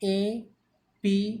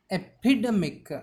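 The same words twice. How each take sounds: First: EPIDEMIC broken into four separate syllables. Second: Said in the usual way. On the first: Shown as a demonstration. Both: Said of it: "It's a four-syllable word".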